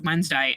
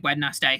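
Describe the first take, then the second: First: It is said the usual way, with letters silent. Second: Every letter is sounded out as spelled. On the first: "it's pronounced Wednesday" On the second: "I say Wednesday so that I make sure I get all the letters"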